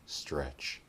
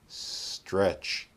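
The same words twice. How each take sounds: First: The S sound is short and ordinary. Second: The S sound is drawn out and exaggerated. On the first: "the second time we'll make a normal S" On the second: "The first time we'll exaggerate the S"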